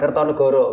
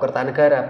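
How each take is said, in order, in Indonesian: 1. Vokal terakhir diucapkan sebagai 'o'. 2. Vokal terakhir diucapkan sebagai 'a'. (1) "bukan Kertonegoro" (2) "bacanya tetap Kertanegara"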